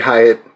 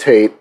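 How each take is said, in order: First: The name sounds like 'Hi-at', two syllables. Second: The name sounds like the word 'hate'. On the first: The hosts knowingly choose this pronunciation. The speaker calls it wrong. "We we say Hyatt" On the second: This is the intended pronunciation. The speaker calls it right. "we do know that it's hate"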